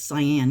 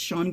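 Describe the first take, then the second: First: The name is said with two syllables, like sigh-an. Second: The name is said with one syllable, like shawn. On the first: The speaker calls it wrong. "I've been pronouncing this author's name wrong. I thought it was Cyan" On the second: The speaker calls it right. "it's actually supposed to be pronounced like Sean"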